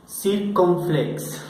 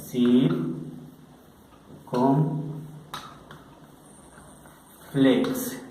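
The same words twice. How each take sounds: First: Circunflex stretched out slowly; drawn out. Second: Circunflex dragged out syllable by syllable; very slow. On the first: Teacher introduces the accent, slowly. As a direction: linger on each syllable of circunflex. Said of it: "Ahora vamos a ver el acento". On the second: Teacher models the word very slowly. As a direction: stretch circunflex as long as you can. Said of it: "Acento circunflex". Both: Shown as a demonstration.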